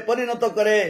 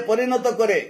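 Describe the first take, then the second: No difference in how they are said.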